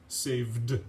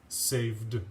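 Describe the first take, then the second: No difference in how they are said.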